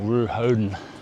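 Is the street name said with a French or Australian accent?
Australian. It is said with an Australian accent.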